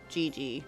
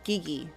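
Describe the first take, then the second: First: The G sounds are said the American way. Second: The G sounds are said the Japanese way. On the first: "more of the um, American pronunciation of the G sound" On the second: "So in Japanese it would be Gigi"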